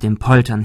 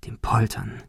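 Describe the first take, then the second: First: Said in the usual way. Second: Hushed, ominous whisper; whispered repetition. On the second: A narrator's reading. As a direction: drop to a whisper as it dawns. Repeated as ominous realisation. (unheilvoll geflüstert)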